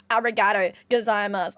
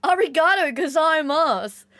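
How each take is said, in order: First: Said in the usual way. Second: Excited thanks. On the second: Real, not acted.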